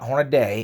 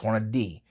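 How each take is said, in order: First: The name ends with an 'ay' sound. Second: The name ends with an 'ee' sound. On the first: The speaker calls it wrong. "There's not an A between the D and the Y. So it's not Hornaday" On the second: The speaker calls it right. "it's Hornady"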